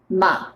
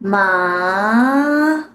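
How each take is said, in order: First: The pitch stays low and relaxed. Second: The pitch rises upward steadily. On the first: "the third tone ... it's just a low sound tone" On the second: "your throat will leave the original place and go up"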